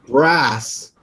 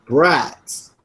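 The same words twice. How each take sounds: First: "brass" ending in a plain S; "brass", as the word was misheard; misheard pronunciation. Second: "Brats" with a T before the S; "Brats", set apart from "brass"; corrected pronunciation. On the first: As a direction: say "brass" with a hissing S and no T. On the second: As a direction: say "Brats" ending in a crisp TS. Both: Shown as a demonstration. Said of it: "I thought you were saying brass".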